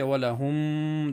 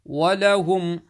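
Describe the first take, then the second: First: The final m sound is held and prolonged. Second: The final m sound is released quickly and clearly. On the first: The speaker calls it wrong. "don't say walahum, that's wrong" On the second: The speaker calls it right. "Read clearly without holding"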